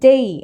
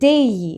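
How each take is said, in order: First: The vowel glides from 'eh' toward 'ee'. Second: The same.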